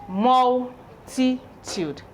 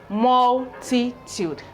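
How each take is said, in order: Both takes have the same delivery.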